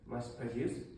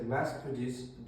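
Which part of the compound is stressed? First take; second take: produced; mass. First: The stress falls on the second part, produced. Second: The stress falls on the first part, mass. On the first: "Here the stress is in the second part" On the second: "Here the stress is in the first part"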